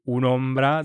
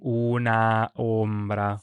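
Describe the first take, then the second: First: The final vowel is dropped and the words join. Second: The final vowel is pronounced before the next word. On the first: The speaker calls it right. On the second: The speaker calls it wrong.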